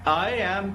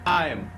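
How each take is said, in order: First: Both words are said fully and separately. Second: The words are merged into one short syllable.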